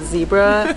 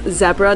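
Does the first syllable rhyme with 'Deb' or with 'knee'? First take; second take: knee; Deb. First: The first syllable rhymes with 'knee'. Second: The first syllable rhymes with 'Deb'. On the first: The speaker calls it wrong. "not Zebra" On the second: The speaker calls it right. "it's pronounced Zebra"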